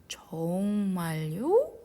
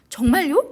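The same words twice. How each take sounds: First: It is said very slowly and drawn out. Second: It is said at a quick, normal pace. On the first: The speaker calls it right. "아주 천천히" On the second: The speaker calls it wrong. "아니고"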